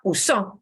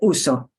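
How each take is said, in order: First: The stress is on the final syllable. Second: The stress is on the first syllable. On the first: He or she used it in the past. The speaker calls it wrong. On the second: I use it. The speaker calls it right.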